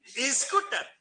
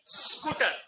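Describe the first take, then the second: First: An extra i vowel comes before the s. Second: The word starts directly with the s sound. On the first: The speaker calls it wrong. "कोई कोई तो स्कूटर स्कूटर" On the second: The speaker calls it right. "जबकि होना क्या चाहिए?"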